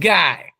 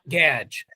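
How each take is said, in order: First: The name is said as 'Guy'. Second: The name is said as 'Gadge'. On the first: The speaker calls it right. "It's Rachi and Guy" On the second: The speaker calls it wrong. "it's not Gadge"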